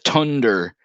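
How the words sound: It begins with a hard T sound. "he would say tunder"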